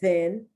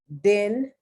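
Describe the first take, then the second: First: The word starts with a soft TH sound. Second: The word starts with a hard D sound. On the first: "the T H sound" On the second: "D sound"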